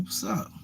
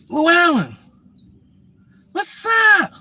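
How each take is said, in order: First: Reluctant greeting. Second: Mock her shrill-pitched hello, stretched out; excited woman greeting. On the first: Retold or imitated. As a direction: act out an unenthusiastic mumbled hello. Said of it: "I'm like". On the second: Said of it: "She's like".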